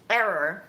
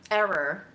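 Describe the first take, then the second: No difference in how they are said.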